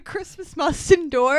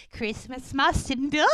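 First: Said in the usual way. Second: Creepy, strained little creature voice; Schmeagol. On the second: Retold or imitated. Elves chanting to each other, in a creature voice. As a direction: imitate a creature's eerie chant. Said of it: "it's like Schmeagol".

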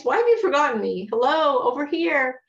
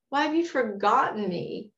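First: Louder and fast, calling out to be noticed; indignant plea. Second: Said in the usual way. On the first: Retold or imitated. The psalmist calling out to a God who forgot him, louder and urgent. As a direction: demand attention from God, a touch exasperated. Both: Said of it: "that's what the psalmist is saying".

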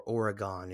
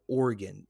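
First: "Oregon" said the mock-sophisticated way, last syllable as a full "gone"; put-on refined "Oregon" with a full final vowel; sophisticated pronunciation. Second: Said in the usual way. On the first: Shown as a demonstration. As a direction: say "Oregon" as "ora-GON", as if sophisticated. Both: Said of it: "if you wanna be sophisticated".

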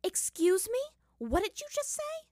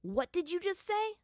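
First: Much higher, louder outraged question; indignant anger. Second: Higher, louder threatening question; dangerous challenge. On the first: Katara rounds on Aang, outraged and shrill. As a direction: fire the question back, outraged. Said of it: "equal amount of anger". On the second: Aang challenges Zuko, a hint of threat. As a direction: dare him to repeat it. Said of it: "narrowed his eyes dangerously". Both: Acted.

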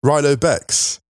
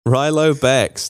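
First: "Rilo Bex" said as RY-lo Bex, drawn out and mocking; mispronounced name. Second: "Rilo Bex" said slowly, RY-lo Bex, raised in pitch; slow mocking repeat. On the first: Mocking a misread of "Rilo Bex" as RY-lo Bex. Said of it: "Rilo Bex. No, it doesn't". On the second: Shown as a demonstration. Co-host slowly echoes "Rilo Bex" as RY-lo Bex, mocking. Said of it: "No, it doesn't".

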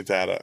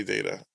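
First: "data" with a short A, DAT-uh; own pronunciation. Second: "data" with a long A, DAY-tuh; co-host's pronunciation. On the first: Host comparing with co-host, "data" as DAT-uh. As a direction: say "data" with the vowel of "cat". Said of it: "'cause I say data". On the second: Host echoing co-host's way, "data" as DAY-tuh. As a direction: say "data" to rhyme with "later". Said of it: "you say data". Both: Shown as a demonstration.

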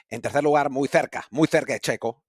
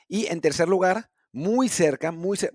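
First: Spain accent, "th" in "tercer" and "cerca"; Castilian Spanish accent. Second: Said in the usual way. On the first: Shown as a demonstration. Host jokingly redoing the podium in the correct accent, Castilian Spanish. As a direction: put on a Castilian lisped c in "cerca". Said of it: "lo voy a decir con el acento". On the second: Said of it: "lo estoy diciendo con acento incorrecto".

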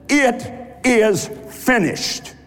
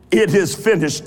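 First: It is finished, drawn out slowly and falling; slow solemn declaration. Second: "It is finished" said briskly, ordinary pace, falling; quicker plain restatement. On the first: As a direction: say "It is finished" slowly, each word weighted, falling at the end. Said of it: "That's what he said". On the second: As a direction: say "It is finished" lightly, moving on. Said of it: "English renders three words for one". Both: Shown as a demonstration.

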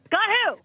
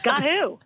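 First: Much higher, baffled repeat. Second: Confused question. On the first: Pranked teammate to coach, rising bafflement. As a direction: push the confusion further. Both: Retold or imitated. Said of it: "She's like".

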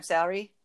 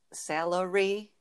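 First: "salary" in two syllables, SAL-ree; quick "sal-ree" for "salary"; colloquial salary. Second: "salary" slowly as SAL-uh-ree; slow, separated "salary"; correct salary. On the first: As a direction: squash the middle of "salary". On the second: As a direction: sound out all three syllables of "salary". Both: Shown as a demonstration. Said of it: "but it's salary".

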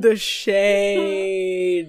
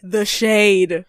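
First: SHADE stretched long and held; drawn-out SHADE. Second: SHADE punched loud in the usual pitch; emphatic SHADE. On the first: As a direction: savour the insult, dragging SHADE right out. Repeats it for comic effect. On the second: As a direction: call out the catty remark, hitting SHADE. Savouring a catty remark. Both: Real, not acted.

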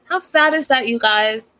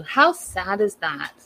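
First: Exclaimed. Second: Slow and a touch softer, "How" falling; sad. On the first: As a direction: throw the question out to the viewers. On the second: Recapper feeling for the fiance, slow and sorry. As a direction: let the sympathy slow you down. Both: Real, not acted.

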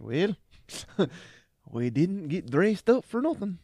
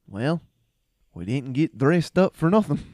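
First: Higher, laughing as he quotes; can barely get the line out for laughing; giggling retelling of the battle quip; quote through laughter. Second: Mock heroic loud delivery; Braveheart line, loud. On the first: Retold or imitated. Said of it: "and you're just like". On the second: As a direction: boom it out like a warrior shrugging at death. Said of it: "like that".

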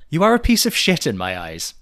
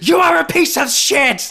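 First: Emphatic read-out, short of yelling; raised but restrained quoted tirade; recital without impression. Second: High, loud, fast mock tirade; over-the-top imitation of furious yelling. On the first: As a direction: recite the insult firmly, holding back the venom. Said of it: "I won't do it with an impression". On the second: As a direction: scream the insult as a hammed-up rant. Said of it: "it's yelled".

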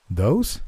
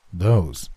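First: "Those?" asked with a rising, disbelieving lift; a doubting "Those?" that climbs at the end; "Those?" rising in disbelief; incredulous question. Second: "Those," answered with a falling, settled tune; a calm "Those," that drops and closes; "Those," falling and matter-of-fact; flat confirmation. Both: A narrator's reading. Disbelieving question, then confirmation.

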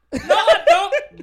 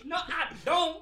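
First: High, slow, laughing mock old lady voice. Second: Lightly high mock señora voice; mock old lady. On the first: Agent mimicking a grumpy caller who rejects the greeting, high and laughing. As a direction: drag it out high like a cranky señora through laughter. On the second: Agent repeating the caller's retort, a lighter mock old lady. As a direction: toss it off again in a pinched caller voice. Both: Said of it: "te decía así como".

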